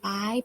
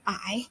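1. พยางค์นี้ออกเสียงด้วยเสียงสูง 2. พยางค์นี้ออกเสียงด้วยเสียงขึ้น (1) "ตรี" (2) "จัตวา"

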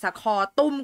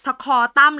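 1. พยางค์สุดท้ายมีสระ 'u' แบบห่อริมฝีปาก 2. พยางค์สุดท้ายมีสระ 'a' แบบเปิด (1) "ดีกว่าสคอตุ้ม" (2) "พี่อ่านว่าสคอตั้มดีกว่า"

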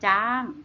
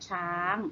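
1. คำนี้ขึ้นต้นด้วยเสียง j 2. คำนี้ขึ้นต้นด้วยเสียง ch (1) "ส่วนถิ่นเหนือเขาเรียกว่าจ้าง" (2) "ภาษาไทยมาตรฐานเราเรียกช้างนะคะ"

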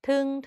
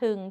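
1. พยางค์นี้พูดด้วยเสียงสามัญ 2. พยางค์นี้พูดด้วยเสียงต่ำ (1) "เสียงสามัญ" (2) "เอก"

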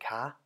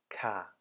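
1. Die Partikel wird mit hohem Ton gesprochen. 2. Die Partikel wird mit fallendem Ton gesprochen. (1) "kommt der zweite Partikel zur Anwendung im hohen Ton" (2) "folglich im fallenden Ton"

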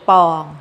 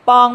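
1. พยางค์นี้เป็นเสียงสามัญ 2. พยางค์นี้เป็นเสียงตรี (1) "คำว่าปองนะคะเป็นเสียงสามัญ" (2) "ไม้ตรี"

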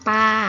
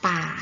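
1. พยางค์นี้มีเสียงกลาง 2. พยางค์นี้มีเสียงต่ำ (1) "ปออาปา" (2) "เอกป่า"

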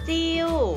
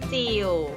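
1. คำว่า “จิว” พูดด้วยเสียงโท 2. คำว่า “จิว” พูดด้วยเสียงเอก (1) "เติมไม้โทลงไปจะเป็นจิว" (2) "เติมไม้เอกลงไปจะเป็นจิ๋ว"

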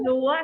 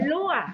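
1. พยางค์นี้ออกเสียงเป็นเสียงสูง 2. พยางค์นี้ออกเสียงเป็นเสียงตก (1) "เพิ่มไม้โทเป็นรั้ว" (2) "เป็นไม้เอกเป็นรั่ว"

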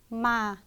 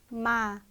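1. 음이 처음부터 끝까지 꾸준히 내려갑니다. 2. 음이 처음부터 끝까지 꾸준히 내려갑니다.

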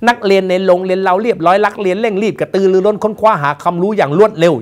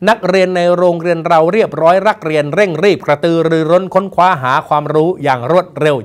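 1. เสียง r ออกเสียงเป็น l 2. เสียง r ออกเสียงเป็น r ที่ชัดเจน (1) "อย่างนี้เขาเรียกว่าไม่ใช่คนไทยแล้ว" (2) "อย่างนี้เขาเรียกว่าคนไทย"

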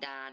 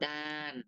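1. พยางค์นี้ออกเสียงระดับกลางแบบราบ 2. พยางค์นี้ออกเสียงแบบเสียงตก

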